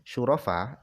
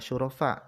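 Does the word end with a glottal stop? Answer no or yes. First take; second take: no; yes. First: The word ends on a vowel, no glottal stop. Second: The word ends with a glottal stop after the vowel. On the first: This is the shortened form of the word. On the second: This is the original long form of the word.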